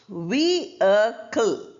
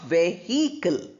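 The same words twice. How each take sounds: First: The middle h sound is left out. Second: The middle h sound is clearly heard. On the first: The speaker calls it right. "H is not pronounced" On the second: The speaker calls it wrong. "not vehicle"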